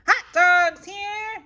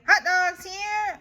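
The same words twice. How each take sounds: First: Loud, high, drawn-out vendor call; vendor's yell. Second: High, loud copycat yell; Eloise yelling. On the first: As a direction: hawk hot dogs to the stands. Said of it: "yells a boy". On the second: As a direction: shout it back like the vendor. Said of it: "I yell". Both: Acted.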